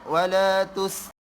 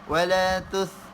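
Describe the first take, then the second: First: The consonant is a plain hissing s. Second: The consonant is a lisped th sound. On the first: The speaker calls it right. "jangan keluarkan lidah" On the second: The speaker calls it wrong. "nanti dia jadi wala tus wala tus"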